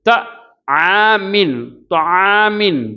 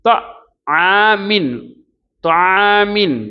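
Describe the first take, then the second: Both takes have the same delivery.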